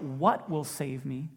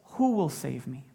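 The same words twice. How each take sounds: First: "What" leaned on, slow with a rising question; stress on what. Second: "Who" hit louder, a plain falling question; stress on who. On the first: Preacher showing the question Paul didn't ask, slow stress on "What". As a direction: stretch out "What" as the wrong question. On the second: Preacher giving Paul's real question, louder stress on "Who". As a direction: punch "Who" as the right question. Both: Shown as a demonstration. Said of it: "Not what".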